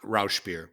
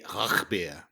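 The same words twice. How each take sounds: First: It is said with an American English pronunciation. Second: It is said with a German pronunciation. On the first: "Americans in English we say" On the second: "in German, I guess they say"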